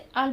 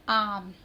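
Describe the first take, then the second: First: The vowel is a short 'a'. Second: The vowel is a long open 'aa'. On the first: The speaker calls it wrong. "अब हम इसे अम नहीं पढ़ेंगे" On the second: The speaker calls it right. "हम इसे पढ़ेंगे आम"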